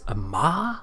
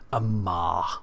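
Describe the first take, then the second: First: The name is said with a surprised, questioning rise. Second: The name is said flatly, as a firm statement. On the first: The speaker did not expect him to be there. The speaker calls it wrong. "she has that inflection on it. It's Amar?" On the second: The speaker is identifying a known enemy. The speaker calls it right. "it's supposed to be Amar. Much more of a, here he is, this is the bastard"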